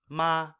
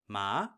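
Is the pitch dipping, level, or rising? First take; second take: level; rising. First: The pitch stays high and level throughout. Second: The pitch starts mid and glides upward. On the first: "you're starting high, staying high, not veering from that" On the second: "starting more at a mid level and gliding upwards"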